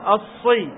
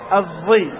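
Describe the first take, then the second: First: The consonant is a clear emphatic s sound. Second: The consonant is between an s and a z. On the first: "وليست صاد الصي" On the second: "بينهما بين الصاد والزاي"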